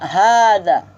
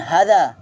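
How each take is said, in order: First: The first vowel is held long. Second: The first vowel is kept short. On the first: The speaker calls it right. "So tu dibaca hadza" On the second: The speaker calls it wrong. "bukan hadza"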